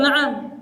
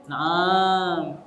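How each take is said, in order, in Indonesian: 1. Vokal terakhirnya pendek. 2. Vokal terakhirnya dipanjangkan. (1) "yang betul na'am" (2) "sebagian kita bilangnya na'am. Ternyata na'am itu ada makna lain"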